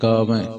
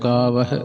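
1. ਸ਼ਬਦ ਇੱਕ ਨਾਸਿਕ 'ai' ਧੁਨੀ ਨਾਲ ਖ਼ਤਮ ਹੁੰਦਾ ਹੈ। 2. ਸ਼ਬਦ 'hi' ਧੁਨੀ ਨਾਲ ਖ਼ਤਮ ਹੁੰਦਾ ਹੈ। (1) "ਇਉਂ ਨਹੀਂ ਕਹਿਣਾ" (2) "ਹਾਹੇ ਨੂੰ ਸਿਹਾਰੀ"

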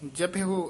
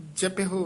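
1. ਸ਼ਬਦ ਦਾ ਆਖ਼ਰੀ ਸੁਰ 'o' ਹੈ। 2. ਸ਼ਬਦ ਦਾ ਆਖ਼ਰੀ ਸੁਰ 'o' ਹੈ।

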